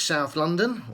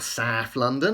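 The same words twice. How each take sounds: First: It is said in a neutral, standard accent. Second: It is said in a local South London accent.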